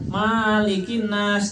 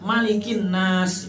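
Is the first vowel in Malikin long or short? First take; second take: long; short. First: The first vowel of Malikin is held long. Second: The first vowel of Malikin is kept short. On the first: The speaker calls it wrong. "yang dibaca panjang ... itu salah" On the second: The speaker calls it right. "langsung aja ... tenang bujur"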